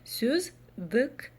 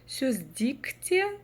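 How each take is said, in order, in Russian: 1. Второй гласный имеет среднюю мягкость. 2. Второй гласный произносится полностью мягко. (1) "Звучит вот ровно так, как нам надо" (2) "Тоже вроде мягко, но произносится некомфортно"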